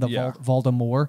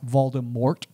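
First: The final T is silent. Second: The final T is clearly sounded. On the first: "in that way where it's a silent T at the end" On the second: "starts to refer to him as Voldemort"

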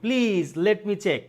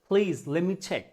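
First: Let me is said as two full words. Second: Let me is squeezed into one word, lemme. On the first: "এটা আমরা বলি please লেট মি check" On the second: "না বলে কি বলছে please লেমি check"

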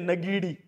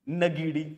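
First: The name begins with a 'na' sound. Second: The same.

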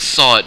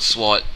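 First: The word is said with a silent w. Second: The word is said with a pronounced w. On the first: The speaker calls it right. "It's sword" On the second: The speaker calls it wrong. "not sword"

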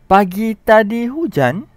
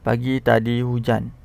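First: The pitch goes up high near the end. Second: It is said flat, with no intonation. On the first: It is asked as a question. "kita guna intonasi yang betul" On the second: It is a plain statement. "tak ada intonasinya"

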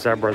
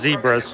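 First: It is pronounced the non-American way. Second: It is pronounced the American way. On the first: The speaker calls it right. "Everywhere else in the world, they refer to them as zebras" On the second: The speaker calls it wrong. "here in the United States, I call them zebras"

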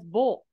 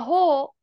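First: The syllable begins with a voiced b sound. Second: The syllable begins with an unvoiced h sound. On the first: The speaker calls it wrong. "you tried to guess ho as bowl" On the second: The speaker calls it right. "so that's why you don't get voicing in this word"

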